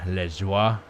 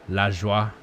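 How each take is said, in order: The two takes are said the same way.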